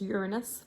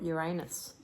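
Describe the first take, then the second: First: Uranus is pronounced the American way. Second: Uranus is pronounced the Australian way. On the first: "which is Uranus for those in the United States" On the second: "in Australia we call it Uranus"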